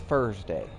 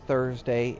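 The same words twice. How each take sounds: First: The word begins with an f sound. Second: The word begins with a th sound.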